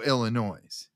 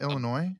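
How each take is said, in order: First: The word ends with an audible S sound. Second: The word ends without any S sound. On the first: The speaker calls it wrong. "Why are you putting an S on the end" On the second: The speaker calls it right. "there you go"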